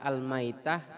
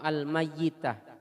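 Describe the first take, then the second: First: The y sound is short and single. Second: The y sound is doubled and held longer. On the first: "dibaca secara ringan" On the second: "bisa juga dengan tasydid"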